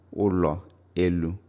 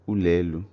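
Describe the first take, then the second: First: Both words keep their own separate vowels. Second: The first vowel takes the sound of the second.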